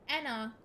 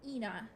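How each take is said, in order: First: The name begins with an 'eh' vowel. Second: The name begins with an 'ee' vowel. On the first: The speaker calls it right. "proper pronunciation is um Enna" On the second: The speaker calls it wrong. "the way it was first spoken by Mooney in Auction Day was um Ina"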